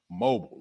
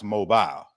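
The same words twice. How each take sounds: First: Mobile said MOH-bul, like mobile phone; first guess pronunciation. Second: Mobile said MOH-bile, rhyming with aisle; corrected pronunciation. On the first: Host guessing how the Alabama city is said, MOH-bul. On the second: Host settling on the city's name, MOH-bile. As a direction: give mobile a long final bile. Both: Shown as a demonstration. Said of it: "I think it's pronounced mobile".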